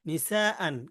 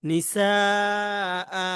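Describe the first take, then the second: First: The word ends with an n sound. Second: The word ends with a long drawn-out vowel. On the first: The word is read in continuous recitation. "হামজা দুই জবর আন" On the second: The reciter stops on the word. "অক্ফ করার কারণে কি হবে?"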